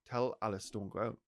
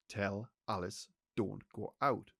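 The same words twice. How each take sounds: First: It is said in a plain, neutral tone. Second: It is said sternly, with more authority.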